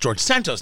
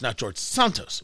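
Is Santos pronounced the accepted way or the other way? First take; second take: accepted; other. First: The name is said the accepted way. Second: The name is said the other way. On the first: The speaker calls it right. "So I guess it's Santos" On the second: The speaker calls it wrong.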